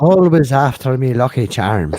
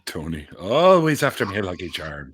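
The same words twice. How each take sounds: First: Bigger, punched-up Irish leprechaun; playful Irish accent breaking toward laughter. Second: Lightly put-on Irish accent; a hint of Irish leprechaun, tailing off. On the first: Acted. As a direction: belt the opening in a mock Irish brogue. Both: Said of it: "it's a standard Irish accent".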